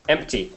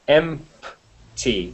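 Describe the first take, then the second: First: The word is said quickly, P barely heard. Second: The word is said slowly, with a clear P. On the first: "you say it very quickly" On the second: "It's it's very slowly"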